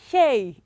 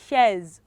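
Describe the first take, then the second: First: No z sound is heard at the end. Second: A z sound is heard at the end. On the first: The speaker calls it right. "letter Z is usually silent in some borrowed foreign languages. So it is shay" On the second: The speaker calls it wrong. "you would want to say shares"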